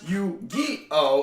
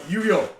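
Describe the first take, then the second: First: The syllables are said separately, with breaks. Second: The syllables are run together as one word. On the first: The speaker calls it wrong. "it's less Yu-Gi-Oh" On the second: The speaker calls it right. "It's more Yu-Gi-Oh, like all one word"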